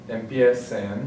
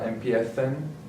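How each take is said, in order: First: The c is pronounced like an s sound. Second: The c is pronounced like a th sound. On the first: "the C has that S sound" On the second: "in Spain, the S's, the C's, and the Z's have a sound kind of like um, bother, the, that sound"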